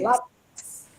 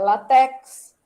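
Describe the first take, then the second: First: The stress falls on the first syllable. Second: The stress falls on the second syllable. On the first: The speaker calls it right. "Tem acento" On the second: The speaker calls it wrong. "não é latex"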